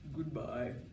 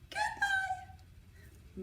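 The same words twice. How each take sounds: First: It is said in a very low voice. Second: It is said in a very high voice.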